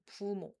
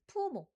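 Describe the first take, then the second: First: The word starts on a low pitch. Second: The word starts on a high pitch. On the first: The speaker calls it right. "you use a lower pitched sound" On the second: The speaker calls it wrong. "be careful not to start with a higher pitched sound like"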